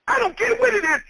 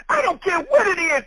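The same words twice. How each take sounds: First: High emphatic repeat. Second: Said in the usual way. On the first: Acted. Preacher repeats it, much higher.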